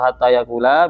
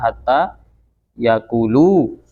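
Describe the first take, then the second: First: The verb ends with an 'a' vowel. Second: The verb ends with a 'u' vowel. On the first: "dengan dibaca nasab" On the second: "dibaca rofa"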